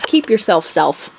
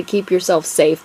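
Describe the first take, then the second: First: "self" said in place of "safe"; misprinted last word. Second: Said in the usual way. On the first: Shown as a demonstration. Author shows viewers her draft's typo, "self" pronounced deliberately for "safe". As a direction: read the typo "self" out slowly and distinctly. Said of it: "but what it says is". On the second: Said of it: "is supposed to say".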